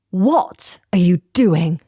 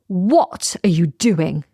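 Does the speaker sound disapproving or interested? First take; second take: disapproving; disapproving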